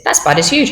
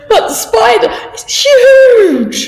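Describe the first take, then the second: First: Said in the usual way. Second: Much higher, slow, loud alarm; scared. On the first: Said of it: "If you like them". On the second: Shown as a demonstration. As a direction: shriek at a big spider. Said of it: "you might be a little bit scared".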